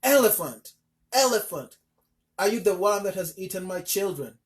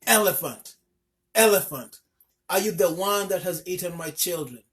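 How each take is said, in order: First: Loud, higher screamed demand; screaming. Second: Loud, higher furious shouting; angry shout. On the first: Mother stamping and screaming at the elephant again. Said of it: "she screamed at him again". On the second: Mother shouting angrily at the elephant who ate her children. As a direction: confront him at full voice. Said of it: "she shouted angrily". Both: A narrator's reading.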